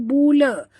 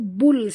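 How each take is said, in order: First: The l bounces into an added vowel. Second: The syllable ends cleanly on the l. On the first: The speaker calls it wrong. "jangan lantunkan dia, jangan baca bula" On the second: The speaker calls it right. "tapi baca bul saja"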